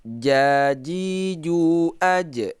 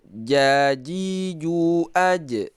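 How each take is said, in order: Both takes have the same delivery.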